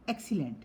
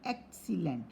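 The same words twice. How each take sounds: First: Said in the usual way. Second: "excellent" broken as ex... cellent; teacher sounding out "excellent" in pieces; syllable by syllable. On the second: Shown as a demonstration. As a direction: say "excellent" in separated, drawn-out parts. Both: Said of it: "Some have three syllable".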